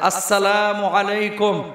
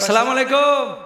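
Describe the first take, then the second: First: The greeting is said in full, nothing dropped. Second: The opening syllable of the greeting is dropped. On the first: The speaker calls it right. "সালামটা দিবেন সুন্দর করে" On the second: The speaker calls it wrong. "এখনো বিশুদ্ধ সালামটাও শিখে নাই"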